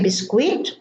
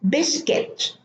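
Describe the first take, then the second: First: It is said with an Arabic pronunciation. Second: It is said with an English pronunciation. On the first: "In Arabic, we say biscuit" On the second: "but in English, it's biscuit"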